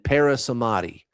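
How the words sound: It is said with an American accent.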